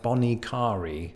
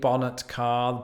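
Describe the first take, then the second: First: The second word is said the local way. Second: The second word sounds like English 'car'. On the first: The speaker calls it right. "the locals go with something like bonnet carre" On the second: The speaker calls it wrong. "The bonnet of a car in British English. ... That's that's not it"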